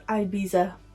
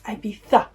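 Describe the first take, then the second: First: Ibiza is said the way some Americans say it. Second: Ibiza is said the way British speakers say it. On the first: The speaker calls it wrong. "I have seen far too many Americans ... pronounce this as Ibiza" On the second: The speaker calls it right. "It's Ibiza"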